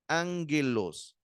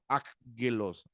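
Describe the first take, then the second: First: The first gamma is sounded as a nasal N. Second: The first gamma is sounded as a hard G. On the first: The speaker calls it right. "la primera gama se pronuncia como una N" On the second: The speaker calls it wrong. "no se debe repetir la pronunciación como ángelos"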